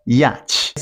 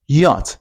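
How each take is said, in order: First: 'yacht' said as 'yatch', with a ch ending; mispronounced. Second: 'Yacht' as 'yot', no ch sound; correct Y word. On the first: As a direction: sound the ch in 'yacht', with a flat a. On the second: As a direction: say 'Yacht' with a short o, ending in t. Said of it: "The next sound is Y". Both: Shown as a demonstration.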